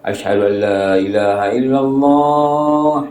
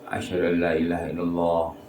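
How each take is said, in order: First: It is said loudly, in full voice. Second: It is said quietly, under the breath. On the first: "Lepas tu baru kuat" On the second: "secara senyap"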